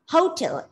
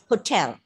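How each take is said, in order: First: The stress is on the first syllable. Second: The stress is on the second syllable. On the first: The speaker calls it wrong. "it's not hotel" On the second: The speaker calls it right. "it's hotel"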